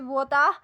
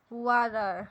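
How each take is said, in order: First: It is said with a British accent. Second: It is said with an American accent. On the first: "British accent" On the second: "American accent"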